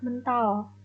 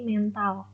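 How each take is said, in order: First: The e sounds like the e in terang. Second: The e sounds like the e in permen. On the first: It means bounced or flung off. "Huruf E dibaca seperti kata terang" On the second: It refers to a person's inner mind and character. "huruf E dibaca seperti kata permen"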